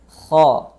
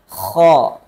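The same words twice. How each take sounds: First: The kh is gentle with a soft friction. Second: The kh is forced from deep in the throat. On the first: The speaker calls it right. "lembut saja" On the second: The speaker calls it wrong. "dibaca berlebihan sehingga makhrajnya itu turun ke tengah tenggorokan"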